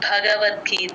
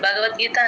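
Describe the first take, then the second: First: The first b sound has a breathy puff. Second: The first b sound has no breath puff. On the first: The speaker calls it right. "ఈ రోజు నుంచి భాకి మహాప్రాణం పెట్టండి" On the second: The speaker calls it wrong. "అందరూ ఏం నేర్చుకుంటున్నారంటే నేను భగవద్గీత అనేస్తారు, అలా అనకూడదు"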